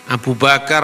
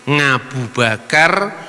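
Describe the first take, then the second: First: It starts with a standard Arabic vowel sound. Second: It starts with a nasal ng sound.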